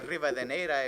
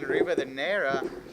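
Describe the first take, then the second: First: The name is said with a Spanish accent. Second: The name is said with an English accent.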